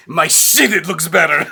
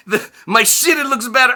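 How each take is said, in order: First: Put-on higher, louder accented boast; "my shit, it looks better" in a proud Eastern European accent; Roman's accent. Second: Put-on higher, louder, laughing through the accented line; "my shit, it looks better" repeated in a laughing Eastern European accent; Roman's accent again. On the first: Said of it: "Roman says". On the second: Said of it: "I lose my shit laughing".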